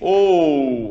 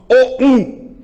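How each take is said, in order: First: The o is strong and the u is weak. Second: The o and the u are equally strong. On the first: The u is a semivowel gliding off the vowel. "o O tá predominante, o U tá um pouquinho mais fraco" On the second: Both are treated as full vowels. "Se eu colocasse as duas no mesmo timbre"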